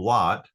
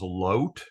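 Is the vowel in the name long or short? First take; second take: short; long. First: The vowel is a short O sound. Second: The vowel is a long O sound.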